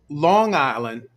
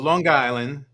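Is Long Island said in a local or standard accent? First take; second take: standard; local. First: It is said in a standard, neutral accent. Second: It is said in a local Long Island accent.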